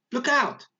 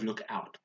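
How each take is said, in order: First: High, louder cry of alarm; shouted warning. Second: Said in the usual way. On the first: Shown as a demonstration. Teacher showing pupils how Yasmin shouted it, a shouted warning. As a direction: call it out as a sudden warning. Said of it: "this is how she said it".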